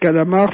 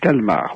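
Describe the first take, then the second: First: The word is said with three syllables. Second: The word is said with two syllables. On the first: The speaker calls it wrong. "il ne faut pas dire calamar" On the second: The speaker calls it right. "il faut dire calmar"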